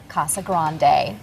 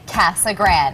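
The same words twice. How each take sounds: First: It is said with a Spanish pronunciation. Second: It is said with a local English pronunciation. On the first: This is how the original Spanish word is said. "It is a Spanish word, properly said Casa Grande" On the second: This is how people who grew up there say it. "the natives say Casa Grande"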